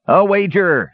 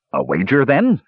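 First: High, mildly shouted exclamation. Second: Questioning cry that leaps up at the end; eager cry. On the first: Dwarf accepting the brothers' wager, shouting. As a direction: seal the challenge with a high cry. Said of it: "shouted Dugan". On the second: Sturm to the dwarf proposing a bet, crying out. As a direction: propose the bet, rising high. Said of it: "cried Sturm". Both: A narrator's reading.

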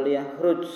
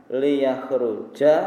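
First: Liyakhruj ends on a bare j with no vowel; ending cut off. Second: Liyakhruja with a clear open a at the end, drawn out; final a pronounced. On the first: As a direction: stop dead on the j of liyakhruj. (liyakhruj diakhiri j mati tanpa vokal) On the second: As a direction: slowly stretch the final a of Liyakhruja. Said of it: "atau liyakhruj". (Liyakhruja diucapkan pelan dengan akhiran a yang jelas) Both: Shown as a demonstration.

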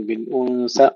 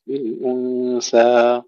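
First: بالأنثى with the alif cut short; بالأنثى ending too quickly; clipped final alif. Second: بالأنثى with the alif held two beats and cut clean; بالأنثى ending in a plain held alif; long final alif, then stop. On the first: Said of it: "لا نقول بالأنثى". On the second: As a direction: stretch the end of بالأنثى, then stop dead. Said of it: "نمدها حركتين ونتوقف". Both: Shown as a demonstration.

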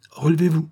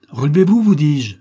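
First: Higher, pressing request to rise; a first, restrained plea; urgent plea. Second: Much higher and louder, a cry; dying son's desperate cry; desperate shout. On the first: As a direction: urge him up, not yet shouting. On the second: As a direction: scream it at him in anguish. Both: Acted. Dying son begs his father.

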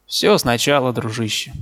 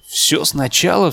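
First: Said in the usual way. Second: Mildly exclaimed question, drawn out; crying out. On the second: A narrator's reading. Sick narrator to his departing friend, crying out in mild disbelief. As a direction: cry out the question, slightly raised and slow. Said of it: "вскричал я".

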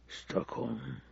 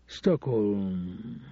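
First: Breathy whisper, almost no voice; whispered, pondering a city name; whispered to himself. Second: Said in the usual way. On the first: Acted. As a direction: let the name fade into a whisper as it sinks in.

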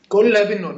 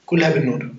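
First: كلها said higher and louder, hit hard; stress on كلها. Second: Said in the usual way. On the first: Shown as a demonstration. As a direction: push كلها up and out with amazement. (تشديد على كلها بصوت أعلى وأقوى)

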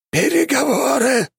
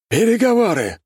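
First: Very high, piercing eldritch shriek; inhuman voice. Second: High, strained eldritch cry; inhuman voice. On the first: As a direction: repeat it even higher and stranger. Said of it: "повторила фигура". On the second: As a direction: shriek it like something not human. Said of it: "произнесла нечеловеческим голосом фигура". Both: A narrator's reading.

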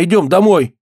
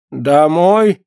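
First: "идём домой" as a high exclamation; "идём домой" high, told as a statement; urging. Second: "Домой" as a puzzled, higher-pitched question; "Домой" asked uncertainly, in a character voice; bewildered echo. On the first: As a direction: urge "идём домой" as a firm call. Comrade urges frightened man home. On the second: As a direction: repeat "Домой" without understanding. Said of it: "повторил Афонька, не понимая". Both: A narrator's reading.

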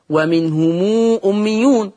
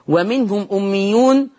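First: ومنهم أميون read "wa-minhumuu", long ū before أميون; lengthened mim. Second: Said in the usual way. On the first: Shown as a demonstration. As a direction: stretch a long ū after the م of ومنهم. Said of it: "وقرأ ورش أيضًا بصلة ميم". (ومنهم أميون بصلة الميم مشبعة) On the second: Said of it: "بصلة ميم".

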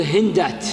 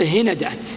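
First: هندات said hindāt, no vowel after the n; vowelless middle consonant. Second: هندات said hinadāt, short a after the n; middle opened with a. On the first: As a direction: run n straight into d in هندات. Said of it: "إما الثاني تسكنه". (هندات بتسكين النون) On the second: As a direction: put an a between n and d in هندات. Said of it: "أو تخففه بالفتح". (هندات بفتح النون) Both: Shown as a demonstration.

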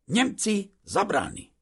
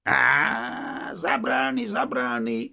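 First: High, nervous explanation; lightly acted timid shopkeeper, pitched up; trembling voice. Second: Big drawn-out mocking exclamation, pitched up; guffawing soldier. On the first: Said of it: "nem csak a hangja reszketett". (félénken, magas hangon magyarázva) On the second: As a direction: play a hearty Russian laughing it off. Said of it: "mondta az orosz röhögve". (röhögő orosz katona hangján) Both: A narrator's reading.

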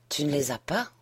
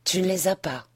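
First: Quiet question rising on "pas"; question incrédule. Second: "Tu ne les as pas?" falling at the end; constat répété. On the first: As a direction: ask "Tu ne les as pas?", lifting the last word. Première répétition, question incrédule. (question basse, « pas » monte) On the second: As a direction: repeat it as a statement, dropping on "pas". Reprise, constat amer. (reprise en constat, « pas » retombe) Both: A narrator's reading.

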